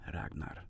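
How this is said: It is said with a foreign, non-American accent. The speaker calls it right. "whatever weird accent they're using"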